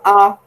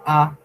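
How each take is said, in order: First: A said higher and louder, the wrong tone; A pitched up as the incorrect tone. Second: A on the correct mid level pitch; right tone. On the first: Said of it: "C'est pas A". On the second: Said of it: "c'est A". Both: Shown as a demonstration.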